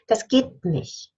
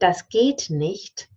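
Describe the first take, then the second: First: The final T of nicht is dropped. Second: The final T of nicht is fully pronounced.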